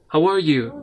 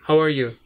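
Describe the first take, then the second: First: It sounds enthusiastic and genuinely interested. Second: It sounds like a plain, neutral question.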